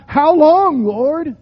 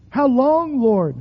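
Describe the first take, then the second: First: Crying out. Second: Pleading cry. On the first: Acted. Preacher voicing lament to God. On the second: Shown as a demonstration. Preacher modelling a cry to God. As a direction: lift the voice on long. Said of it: "Cry out".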